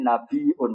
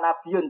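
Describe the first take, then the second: First: It is said with a glottal stop inside. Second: It is said without a glottal stop inside. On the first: The speaker calls it right. "Pakai apa? Hamzah" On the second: The speaker calls it wrong. "mestinya jenenge ora nabiun"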